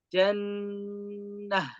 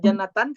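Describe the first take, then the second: First: The word ends with a short h sound. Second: The word ends with a full -atan ending. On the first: The speaker calls it right. "tapi jannah" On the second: The speaker calls it wrong. "tidak boleh dibaca jannatan kalau wakaf"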